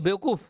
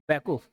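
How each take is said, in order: First: बेवकूफ़ said the standard Hindi way with a clear "be" and "v"; Hindi pronunciation. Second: बैकूफ with an open "bai" sound and no "v", lower in pitch; Chhattisgarhi pronunciation. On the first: Teacher showing students the Hindi form, clear standard Hindi. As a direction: say बेवकूफ़ as in proper Hindi, "bewakoof". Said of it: "जैसे हिंदी में बेवकूफ़". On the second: Teacher showing students the Chhattisgarhi form, Chhattisgarhi pronunciation. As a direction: drop the v and say बैकूफ as "baikoof". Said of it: "Chhattisgarhi में". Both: Shown as a demonstration.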